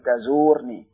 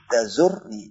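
First: The 'u' vowel after the z is long. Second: The 'u' vowel after the z is short. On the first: The speaker calls it wrong. "jangan dibaca lagi tazurni" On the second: The speaker calls it right. "Dibuang wawnya"

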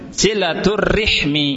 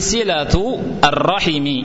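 First: R takes an i vowel; h has none. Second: R takes an a vowel; h takes i. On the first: "ra-nya di kasrah, ha-nya di sukun" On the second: "ra-nya di fathah, ha-nya di kasrah"

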